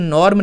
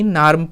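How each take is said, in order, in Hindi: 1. स्वर एक गोल 'aw' ध्वनि है। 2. स्वर एक खुला 'ah' ध्वनि है। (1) "नॉर्म नहीं" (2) "नार्म पढ़ लेंगे"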